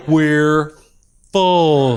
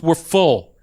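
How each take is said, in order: First: Mock slow, drawn-out words with a pause between; patronizingly slow. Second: Said in the usual way. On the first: Airline agent explains to passenger like he's in slow class, patronizingly slow. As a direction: stretch each word as if to a slow learner. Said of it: "talking to me like I'm in the slow learning class". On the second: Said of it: "Then she starts talking to me like".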